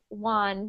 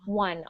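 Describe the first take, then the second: First: The vowel is an open 'ah' like wan. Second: The vowel is a central 'uh' like won. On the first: The speaker calls it wrong. "like one, W A N" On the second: The speaker calls it right. "I want it to sound more like one"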